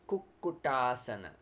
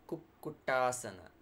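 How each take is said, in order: The two takes are said the same way.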